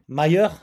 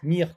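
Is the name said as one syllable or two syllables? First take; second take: two syllables; one syllable. First: The name is said as two syllables, 'may-er'. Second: The name is said as one syllable, 'meer'. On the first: The speaker calls it right. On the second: The speaker calls it wrong.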